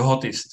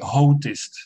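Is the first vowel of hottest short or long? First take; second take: short; long. First: The first vowel is short, closing the syllable. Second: The first vowel is long, leaving the syllable open. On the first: The speaker calls it right. "The hottest, yeah, that's it" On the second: The speaker calls it wrong. "Otherwise, I would say hottest"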